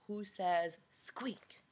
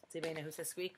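First: Soft slow whisper like a tiny mouse; hushed mouse whisper. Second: Said in the usual way. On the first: Acted. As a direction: whisper it slowly, mouse-quiet. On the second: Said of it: "same question asked plainly".

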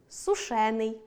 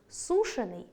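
First: Сушений with stress on ШЕ, single н; stress on second syllable. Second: Сушений with stress on СУ; stress on first syllable. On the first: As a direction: lean on ШЕ in сушений. (наголос на другому складі: сушЕний) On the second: (наголос на першому складі: сУшений) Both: Shown as a demonstration. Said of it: "подовження не відбувається в дієприкметниках".

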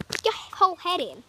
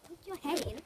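First: Pushing him, louder, on whole; louder urging. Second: Said in the usual way. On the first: Real, not acted. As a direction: call out the dare louder.

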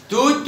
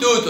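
First: First توت stops on t; sukun ending. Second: توت said as "tootun"; damma tanween. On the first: Teacher sums up the rule, توت with bare t. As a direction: say توت with no final vowel. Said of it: "وبنحط سكون". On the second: Teacher sums up the rule, توت ending in -un. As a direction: add -un to توت. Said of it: "بنحط ضمة". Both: Shown as a demonstration.

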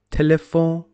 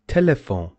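First: Telephone ending in a nasal vowel; French pronunciation. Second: Telephone with a sounded final N; English pronunciation. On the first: Teacher giving the French word, French nasal ending. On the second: Teacher translating the French word, English final N. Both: Shown as a demonstration.

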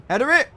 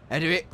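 First: Header it yelled high and loud; shouted command. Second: Said in the usual way. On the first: Real, not acted. Gamer yelling at his striker, loud and high. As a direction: bark Header it at the screen. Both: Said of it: "repeats it louder".

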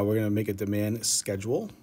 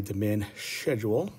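First: Schedule said as sked-jool; schedule with a hard k, sked-jool; plain schedule. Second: Schedule said as shed-yool, slowly; slow, teasing shed-yool for schedule; playful British schedule. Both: Shown as a demonstration. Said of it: "or as I like to say".

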